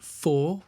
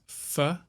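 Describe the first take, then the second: First: The word is said with a full vowel. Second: The word is said with a reduced schwa vowel.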